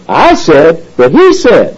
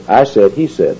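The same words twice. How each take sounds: First: I and HE hit high and slow; stress on I and HE. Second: Said in the usual way. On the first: Shown as a demonstration. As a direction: set I against HE with a high, drawn-out punch on each. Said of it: "that kind of inflection". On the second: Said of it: "if you were just reading this".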